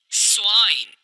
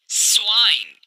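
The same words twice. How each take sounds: The two takes are said the same way.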